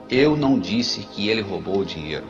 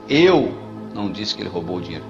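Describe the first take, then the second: The two takes are said the same way.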